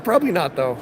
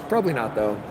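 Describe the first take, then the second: First: Said in the usual way. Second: Much lower, softer mock-serious mumble; deep goofy voice. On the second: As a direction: drop the voice way down, goofy. Repeated in a silly deep voice.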